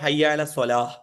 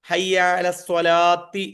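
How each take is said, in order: First: The last word ends in an h sound. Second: The last word ends in a 'ti' sound. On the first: "അല്ലെങ്കിലോ ഹയ്യാല സ്വലാഹ്, ഹാ വരണം" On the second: "ഒന്നുകിൽ ഹയ്യാല സ്വലാത്തി ഹയ്യാല സ്വലാത്തി എന്ന് പറയാം"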